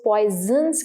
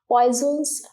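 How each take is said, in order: First: The n sound in the name is pronounced. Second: The n sound in the name is silent. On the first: The speaker calls it wrong. "कई बच्चे इसको पॉइजन्स कहते हैं, but it is not like that" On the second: The speaker calls it right. "एन जो है साइलेंट है"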